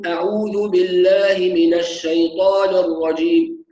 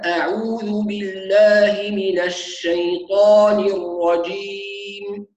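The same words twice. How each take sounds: First: The vowels are slurred and not fully realized. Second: The vowels and opening glottal stop are clear. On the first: The speaker calls it wrong. "هكذا ينطق بعدم تحقيق" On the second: The speaker calls it right. "ونركز أيضا في أول الاستعاذة على تحقيق الهمزة"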